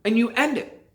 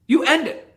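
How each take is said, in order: First: Said in the usual way. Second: Higher, insistent repeat with end punched; emphatic You end it with end hit hard; stress on end. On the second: Shown as a demonstration. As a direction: drive home end, raised and firm.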